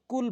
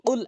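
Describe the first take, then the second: First: কুল with a plain front k; mistaken light k. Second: কুল with q from the tongue root; correct deep qaf. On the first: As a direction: say কুল with k instead of qaf. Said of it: "অধিকাংশ লোক কুল বলে". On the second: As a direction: say কুল as "qul", far back. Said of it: "জিহ্বার গোড়া থেকে উপরের তালু". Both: Shown as a demonstration.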